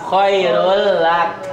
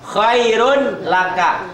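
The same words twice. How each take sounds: First: "Khairul lak" with a doubled l, slow; slow recitation demo; merged reading. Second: Said in the usual way. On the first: Shown as a demonstration. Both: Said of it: "Tanwin ketemu lam".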